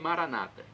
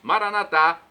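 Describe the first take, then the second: First: The stress is on the second-to-last syllable. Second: The stress is on the last syllable. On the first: This is how Protestants say it. "com a tônica na penúltima sílaba" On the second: This is how Catholics say it. "Nós colocamos a tônica na última"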